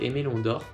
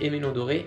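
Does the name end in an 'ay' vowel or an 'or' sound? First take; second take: or sound; ay vowel. First: The name ends with the 'or' sound. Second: The name ends with an added 'ay' vowel. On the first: The speaker calls it right. "c'est Emelon d'or" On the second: The speaker calls it wrong. "donc j'ai dit Emelon doré, mais non"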